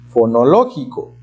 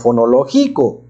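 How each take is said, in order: First: The stress falls on the syllable lo. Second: The stress falls on the syllable gi. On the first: The speaker calls it right. "quedamos que es en la O" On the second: The speaker calls it wrong. "con el acento en la G I"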